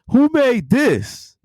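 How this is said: The question sounds pleased and impressed. The dish is praised as excellent. The speaker calls it right.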